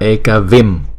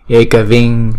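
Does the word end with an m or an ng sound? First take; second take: m; ng. First: The word ends with an m sound. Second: The word ends with an ng sound. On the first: The word stands alone. "chữ này đọc ứng một mình là Ekavim" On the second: The word is followed by another word. "chữ M có dấu chấm này chuyển thành chữ Ngin"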